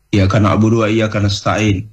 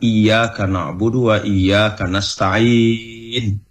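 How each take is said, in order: First: It is recited too fast. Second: It is recited at a moderate, even pace.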